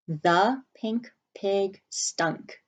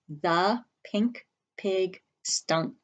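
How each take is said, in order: First: Very slow, word by word; slow dictation. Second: Very slow read-along; slow choral reading. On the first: Teacher dictating the sentence slowly to the class. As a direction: say each word slowly for writing. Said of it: "And our sentence is". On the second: Teacher reading slowly along with the students. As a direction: read it slowly together with the class. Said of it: "Say that with me". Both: Shown as a demonstration.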